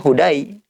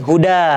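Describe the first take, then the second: First: The word ends with an 'ai' sound. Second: The word ends with a plain 'a' sound. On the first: The speaker calls it wrong. "Kalau kita bilang ini ya, bacanya hudai. Bukan hudai" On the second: The speaker calls it right. "ini huda"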